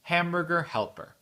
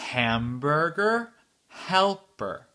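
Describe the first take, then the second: First: The phrase is said at normal, quick speed. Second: The phrase is said slowly. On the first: "très vite, mais pas très vite, mais la vitesse euh, normale" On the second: "la phrase entière lentement"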